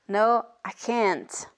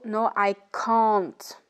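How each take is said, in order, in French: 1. Elle est prononcée avec un accent américain. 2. Elle est prononcée avec un accent britannique. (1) "Et en Amérique" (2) "En Angleterre, on dira plutôt"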